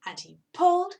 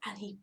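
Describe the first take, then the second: First: Higher, louder straining pull. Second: Hushed first pull; whispered. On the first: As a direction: heave harder this time. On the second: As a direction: start the effort in a whisper. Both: A narrator's reading. Tugging build-up.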